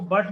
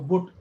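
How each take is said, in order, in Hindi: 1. स्वर एक छोटी 'uh' ध्वनि है। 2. स्वर 'oo' ध्वनि है, जैसे put में। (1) "इसको बट पढ़ते" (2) "मैं पढ़ता हूँ इसको बुट"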